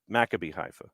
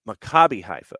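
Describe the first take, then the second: First: Maccabi has stress on its first syllable. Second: Maccabi has stress on its second syllable. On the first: The speaker calls it wrong. "because I thought it was" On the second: The speaker calls it right. "second syllable"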